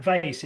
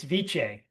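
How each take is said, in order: First: "vice" as one syllable, like the English word; anglicized pronunciation. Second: "vice" as two syllables, VEE-chay; Italian-style pronunciation. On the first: Quoting lawyers who corrected him, "vice" said the English way. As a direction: say "vice" to rhyme with ice. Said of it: "I've been corrected". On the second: Quoting lawyers who corrected him, "vice" said Italian-style as vee-chay. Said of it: "you can speak Italian if you want". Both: Retold or imitated.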